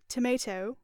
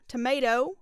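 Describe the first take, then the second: First: It is said in a British accent. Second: It is said in a Southern American twang. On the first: "I'm going to do British" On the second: "I'm going to do a southern twang"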